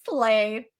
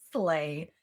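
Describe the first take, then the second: First: Slay. said loud and clipped; loud first Slay; punchy slay. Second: Low second Slay. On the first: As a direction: hit Slay. hard. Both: Shown as a demonstration.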